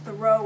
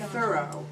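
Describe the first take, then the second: First: The name does not sound like 'thorough'. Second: The name sounds just like 'thorough'. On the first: This is an outsider's way of saying the name. The speaker calls it wrong. "I pronounced Thoreau incorrectly" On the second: This is the accepted way of saying the name. The speaker calls it right. "You're supposed to say thorough"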